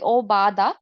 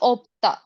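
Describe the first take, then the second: First: An extra vowel follows the first consonant. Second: The first syllable ends in a closed consonant. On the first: The speaker calls it wrong. "So it won't be obada" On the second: The speaker calls it right. "Just opta"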